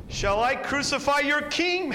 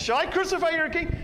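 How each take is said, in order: First: Loud, high appeal to the crowd; loud desperate question to the mob; Pilate pleading loudly. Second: Even higher, loud, leaning on crucify; a final straining appeal over the mob; high, loud last-ditch question, crucify stretched; last-chance plea. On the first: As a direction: call out over a riot, pressing on king. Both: Acted. One more chance.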